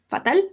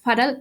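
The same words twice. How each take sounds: First: It is pronounced with Spanish vowels. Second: It is pronounced with English vowels.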